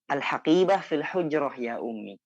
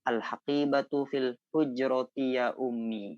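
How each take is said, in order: First: The final vowel endings on the words are dropped. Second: The final vowel endings on the words are pronounced. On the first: This is fluent spoken usage. "tidak perlu menyebutkan harokat akhir" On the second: This is the learning form. "kalau bahasa belajarnya"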